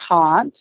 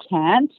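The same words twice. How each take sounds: First: Can't with a long "ah", like "cahnt"; British pronunciation. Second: Can't with a flat American "a" as in "cat"; American pronunciation. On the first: Actress showing her old habit from London, British can't. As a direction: say can't the British way, vowel as in "father". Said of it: "I sounded more British than Australian". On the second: Actress showing what dialect classes taught her, American can't. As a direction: say can't the American way, vowel as in "ant". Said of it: "take some dialect classes and learn how to say". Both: Shown as a demonstration.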